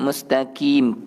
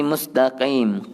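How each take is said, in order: First: "mustaqim" with a light front k; thin k in "mustaqim"; too-thin mustaqim. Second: Back-of-throat q in "mustaqim"; correct qaf. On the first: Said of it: "nipis sangat". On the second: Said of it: "Mesti mustaqim". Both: Shown as a demonstration.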